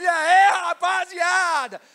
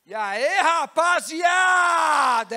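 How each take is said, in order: First: Slow, drawn-out loud shout, even higher; big greeting shout. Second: Slow, drawn-out loud shout; big greeting shout. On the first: Preacher repeating the servant's booming greeting. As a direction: bellow it to the room. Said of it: "É isso que eu imagino". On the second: Servant greeting the party crowd with a huge shout. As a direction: call out to the whole room. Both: Acted.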